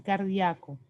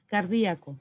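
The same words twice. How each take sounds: First: "cardíaco" as car-DIA-co, stress on the a; diphthong pronunciation. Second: "cardíaco" as car-DÍ-a-co; hiatus pronunciation. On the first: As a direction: glide ia into one syllable in "cardíaco". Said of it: "se puede decir". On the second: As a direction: stress the í in "cardíaco", apart from the a. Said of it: "se puede decir cardíaco". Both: Shown as a demonstration.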